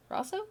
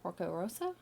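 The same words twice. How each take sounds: First: Rosso said with a much higher, questioning rise; retrying the name. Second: Rosso said with a questioning rise, checking the sound; trying the name. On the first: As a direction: test Rosso again, pitched up high. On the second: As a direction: try out Porco Rosso as if unsure how it goes. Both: Shown as a demonstration. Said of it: "a Studio Ghibli movie called Porco Rosso".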